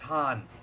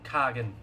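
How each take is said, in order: First: The name begins with a breathy H sound. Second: The name begins with a hard K sound. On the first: The speaker calls it right. "It's Han" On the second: The speaker calls it wrong. "it's written K- Kagan"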